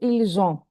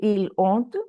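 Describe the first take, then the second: First: The words are joined with a linking z sound. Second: The words are said without a linking z sound. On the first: The speaker calls it right. "so ils ont" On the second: The speaker calls it wrong. "You won't say ils ont"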